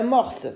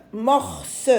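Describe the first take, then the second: First: Said in the usual way. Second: "Morse" split in two, "mor" then "se"; syllable by syllable. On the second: Shown as a demonstration. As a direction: sound out "Morse" with a clearly voiced final "se". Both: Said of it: "La syllabe se".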